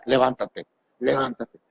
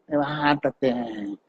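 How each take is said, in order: First: Mumbled command. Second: Drawn-out command. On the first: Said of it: "dile al de al lado". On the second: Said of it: "lo vas a repetir". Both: Pretend.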